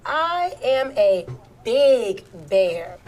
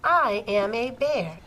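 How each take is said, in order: First: Slow line with "big" drawn out and louder; stress on big. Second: Slow, measured read-aloud as a bear; changed character voice. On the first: Teacher models larger print for pupils, "big" said louder. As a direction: lean hard and long on the word "big". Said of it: "Notice I said big bear". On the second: Teacher models quoted speech for pupils, slow character voice. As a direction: draw out each word as the storybook bear. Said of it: "how my voice changes". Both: Shown as a demonstration.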